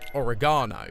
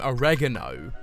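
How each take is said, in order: First: It is said with a British pronunciation. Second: It is said with an American pronunciation. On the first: The speaker calls it right. "which is the British pronunciation" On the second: The speaker calls it wrong. "I've watched so many American programs that I keep saying um, oregano"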